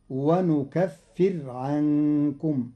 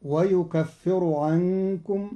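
First: ونكفر said wanukaffir with a silent ra; ونكفر as nukaffir, slowly; with nun. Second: ويكفر said wayukaffiru; ويكفر as yukaffiru. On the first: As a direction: start ونكفر with nun, stop the ra dead. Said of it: "بالنون وجزم الراء". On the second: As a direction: start ويكفر with ya. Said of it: "قرأ قالون كلمة ويكفر". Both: Shown as a demonstration.

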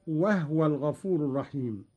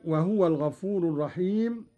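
First: وهو in two syllables, no u after ه; vowelless ha. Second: Said in the usual way. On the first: Shown as a demonstration. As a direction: say وهو as "wahwa". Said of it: "بإسكان الهاء هكذا". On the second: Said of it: "قرأ قالون بإسكان الهاء".

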